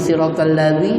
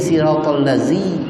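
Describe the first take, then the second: First: The consonant is a soft 'th' sound. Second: The consonant is a buzzing 'z' sound. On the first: The speaker calls it right. "Ramai orang baca" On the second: The speaker calls it wrong.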